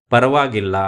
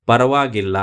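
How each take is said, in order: Both takes have the same delivery.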